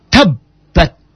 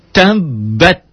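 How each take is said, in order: First: "Tabbat" with a held double b; doubled b. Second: "Tabbat" sung with rising tune; model recitation. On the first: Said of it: "teorinya nyamber". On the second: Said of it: "T A ta". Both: Shown as a demonstration.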